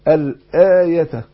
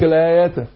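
First: The y sound in the middle is clearly pronounced. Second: The y sound in the middle is dropped. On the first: The speaker calls it right. "لا اقول الايه الايه هكذا" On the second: The speaker calls it wrong. "كتير بيسقطوا الياء بالشكل ده"

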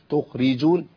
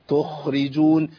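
The two takes are said the same way.

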